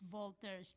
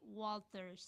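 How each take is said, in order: First: The name is said with a German pronunciation. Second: The name is said with an American pronunciation. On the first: "German is Walters" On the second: "in America they pronounce it Walters"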